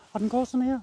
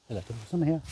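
First: Higher demo take. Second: Lower softer demo take. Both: Shown as a demonstration.

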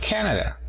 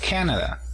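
First: Canada with a strong first syllable, higher; stress on the first syllable. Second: Canada with a strong, higher Ca; stress on the first syllable. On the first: Teacher models the word for the class, first syllable strong. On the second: Teacher repeats the word for the class, first syllable strong. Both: Shown as a demonstration. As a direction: punch the Ca of Canada. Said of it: "la mayor fuerza de voz está al inicio".

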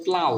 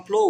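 First: প্লাউ with an 'ow' glide as in flower; flower vowel. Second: প্লো ending in a long 'o' as in flow; flow vowel. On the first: Teacher showing how the word changes now, প্লাউ with an 'ow' glide. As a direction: say প্লাউ opening on 'aa', closing on 'u'. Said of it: "এখন হবে প্লাউ". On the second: Teacher recalling the earlier word for contrast, প্লো with an 'oh' vowel. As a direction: say প্লো with an open-ended 'oh' sound. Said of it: "একটু আগে বললাম প্লো". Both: Shown as a demonstration.

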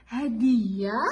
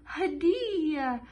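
First: Said in the usual way. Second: Drawn-out word. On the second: Shown as a demonstration. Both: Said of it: "نقرأ مع بعض".

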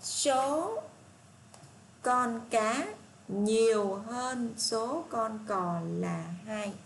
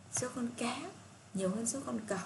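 First: Very slow, deliberate reading of the statement; slow read-aloud. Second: Said in the usual way. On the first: Shown as a demonstration. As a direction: stretch each word so the class can follow. Reads statement C slowly. (đọc chậm từng chữ câu C)

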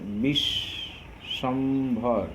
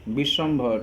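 First: Very slow Bishwambhar, as বিশ... শম... ভর; syllable split. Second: Said in the usual way. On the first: Shown as a demonstration. Teacher counts closed syllables in Bishwambhar, syllable split. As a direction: draw out Bishwambhar, pausing between syllables. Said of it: "এখানে কয়টা রুদ্ধ দল আছে". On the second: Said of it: "কয়টা রুদ্ধ দল আছে".

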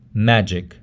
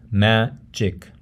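First: Said in the usual way. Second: Magic split into ma-gic; syllable by syllable. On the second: Shown as a demonstration. Teacher breaks up an English word, syllable by syllable. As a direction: say magic in two separate syllables. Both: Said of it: "how you break up a word".

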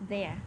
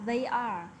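First: "there" as one syllable; contracted form. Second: "they are" as two separate words; full form. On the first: Teacher showing the short form, "there" said as one contracted syllable. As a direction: run they and are together into "there". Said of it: "viết tắt là phẩy rồi đến chữ R và E". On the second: Teacher showing the written-out form, "they are" fully pronounced. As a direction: say "they are" uncontracted, both words sounded. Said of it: "viết hẳn chữ ra không ở dạng viết tắt". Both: Shown as a demonstration.

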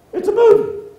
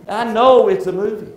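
First: High, loud mock protest; mock exclamation. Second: Loud, higher stress on "know"; "know" hit loudly, conceding the point; emphatic retort. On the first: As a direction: burst out with a mock-incredulous objection. Acts out an objection to crying. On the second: Acted. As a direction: push hard on "know" in exasperated reply. Answers the acted objection.

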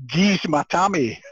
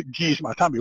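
First: Slow, forceful Scottish demand; heavy Scottish accent, stretched words. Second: Said in the usual way. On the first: Retold or imitated. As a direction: demand it in broad Scots, drawn out. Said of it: "in my Scottish accent". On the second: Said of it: "what does that mean".

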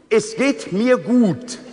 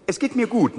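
First: "Es geht mir gut" slowly, leaning on "mir"; slow dictation with "mir" pressed; stress on mir. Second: Said in the usual way. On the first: Shown as a demonstration. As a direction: spell out "mir" for the child. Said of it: "Und es geht mir gut".

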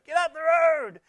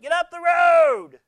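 First: High, loud mock yell, a little quicker; loud road-rage shout copied from Goldie; imitated road shout. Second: High, loud, slow mock shout; hammed-up road-rage shout; imitated road shout. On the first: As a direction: shout like Goldie behind the wheel. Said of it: "She's heard that from Goldie". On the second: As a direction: yell it at the car in front. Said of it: "She went".

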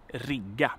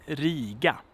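First: "rigga" with short i and held g; short vowel, long consonant. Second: "Riga" with drawn-out i, short g; long vowel, short consonant. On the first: Teacher contrasts verb with city, long consonant in "rigga". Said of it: "long consonant". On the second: Teacher demonstrates the rule, "Riga" with long vowel. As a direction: lengthen the vowel in "Riga", not the g. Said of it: "and a short consonant". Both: Shown as a demonstration.

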